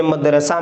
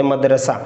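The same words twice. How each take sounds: First: मदरसा with the final ह sounded out at the end; wrong pronunciation. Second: मदरसा ending on a plain a, the final ह silent; right pronunciation. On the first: Teacher showing students the wrong way, sounding the final ह in मदरसा. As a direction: say मदरसा wrongly, voicing the last ह. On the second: Teacher showing students the correct मदरसा, final ह left silent. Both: Shown as a demonstration. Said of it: "ऐसे नहीं बोलते".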